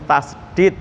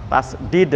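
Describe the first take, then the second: No difference in how they are said.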